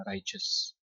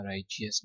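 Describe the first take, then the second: First: "राइचस" in two syllables, RAI-chus; correct pronunciation. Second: "राइचियस" with an extra "ee", rai-chi-us; wrong pronunciation. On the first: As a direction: model "राइचस" with no "ee" before "us". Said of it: "इसको पढ़ना है". (सही उच्चारण "राइचस", बिना "चि-यस" के) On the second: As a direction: demonstrate the mistaken three-syllable "राइचियस". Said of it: "राइचियस नहीं पढ़ना". (गलत उच्चारण "राइचियस", "चि-यस" के साथ) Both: Shown as a demonstration.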